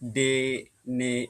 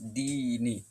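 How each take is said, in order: First: The vowels are a short 'e' sound. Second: The vowels are a long 'ee' sound. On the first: The speaker calls it wrong. "অনেকেই আমাদের দেখা যায় গ্রাম বাংলায় দে নে এভাবে পড়ে" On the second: The speaker calls it right. "মারুফ পড়তে হবে"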